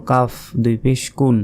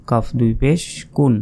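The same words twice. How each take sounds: The two takes are said the same way.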